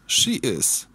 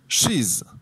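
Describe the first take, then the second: First: Two full words are said separately. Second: The words merge into one short syllable.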